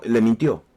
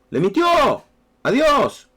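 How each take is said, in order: First: Said in the usual way. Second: "Le mintió a Dios" climbing much higher and louder, "Dios" on top; "Le mintió a Dios" rising to an indignant peak; stress on mintió and Dios. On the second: Shown as a demonstration. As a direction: hammer home "mintió" and "Dios" in outrage.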